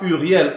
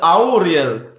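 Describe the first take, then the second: First: The name begins with a plain 'u' vowel. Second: The name begins with an 'au' vowel. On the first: The speaker calls it wrong. "on ne dit pas Uriel" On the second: The speaker calls it right. "on prononce Auriel"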